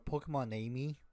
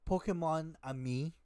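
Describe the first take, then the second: First: The name is said like English 'Amy'. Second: The name is said like French 'ami'. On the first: The pun is missed. The speaker calls it wrong. "way pe- people pronounce it" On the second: It is a pun on the French for my friend. The speaker calls it right. "it's a pun for the French mon ami"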